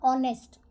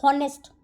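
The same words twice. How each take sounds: First: ऑनेस्ट said with no h, opening straight on the o vowel; silent h. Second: हॉनेस्ट said with a sounded h at the start; wrong pronunciation. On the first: Teacher showing students the right way to say ऑनेस्ट. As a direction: drop the h, say ऑनेस्ट starting with o. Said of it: "एच जो है वो आपका silent होगा". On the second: Teacher showing students the wrong way to say हॉनेस्ट. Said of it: "but ये गलत है". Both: Shown as a demonstration.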